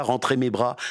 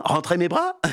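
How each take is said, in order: First: "rentrer mes bras?" lower, leaning on "mes"; stress on mes. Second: "Rentrer mes bras?" rising on "bras", feigned puzzlement; puzzled question. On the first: Dégourdi repeats the order, puzzled, stressing "mes". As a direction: mull over "mes" as if it makes no sense. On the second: Dégourdi plays dumb to the witch, rising question. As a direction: ask it back as if baffled. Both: Acted. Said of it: "fait mine de ne pas comprendre".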